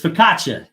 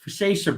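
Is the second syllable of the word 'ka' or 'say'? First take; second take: ka; say. First: The second syllable sounds like 'ka'. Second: The second syllable sounds like 'say'. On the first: The speaker calls it right. "And it's focaccia" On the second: The speaker calls it wrong. "Instead of ka, it was say. So I pronounced it garlic focaccia bread"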